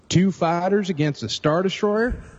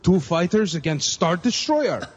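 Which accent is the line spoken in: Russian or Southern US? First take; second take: Southern; Russian. First: It is spoken in a heavy Southern US accent. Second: It is spoken in a Russian accent. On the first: "you really laid on the Southern accent" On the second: "You want me to do it in a Russian accent?"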